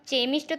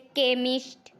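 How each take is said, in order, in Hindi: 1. यह शब्द ch ध्वनि से शुरू होता है। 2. यह शब्द k ध्वनि से शुरू होता है। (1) "इसको हम चेमिस्ट तो पढ़ नहीं रहे हैं" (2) "सी एच को हम का भी पढ़ते हैं"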